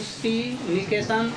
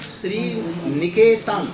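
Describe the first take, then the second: First: The stress falls on the word Sri. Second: The stress falls on the word Niketan. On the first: The feet are the abode of Lakshmi. "If we get place on Sri Niketan" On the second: The lap of Lakshmi is the abode of the feet. "will give place on Niketan"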